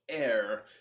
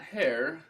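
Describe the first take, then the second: First: The word begins with a vowel, no h sound. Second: The word begins with an audible h sound. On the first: The speaker calls it right. "it's pronounced like air" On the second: The speaker calls it wrong. "not hair"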